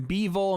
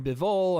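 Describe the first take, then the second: First: "Bivol" said as BEE-vol; alternative pronunciation. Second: "Bivol" said as bih-VOL; short first vowel in "Bivol", stress on the second syllable; alternative pronunciation. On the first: Commentator listing ways to say "Bivol", as BEE-vol. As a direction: stress the first syllable of "Bivol", with a long ee. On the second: Commentator listing ways to say "Bivol", as bih-VOL. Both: Shown as a demonstration. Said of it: "twenty-five different ways to pronounce Bivol".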